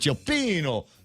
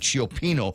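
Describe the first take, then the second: First: It is said with a put-on Italian accent. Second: It is said in a plain, unaccented way. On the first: "maybe I got to put some kind of uh, Italian accent" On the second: "I'm not sure if I'm saying it right"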